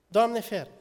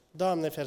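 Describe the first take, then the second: First: Emphatic exclamation. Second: Said in the usual way. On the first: Real, not acted. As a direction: throw it out to the congregation, alarmed. Repeated exclamation, second louder. (exclamație apăsată, mai sus și mai tare)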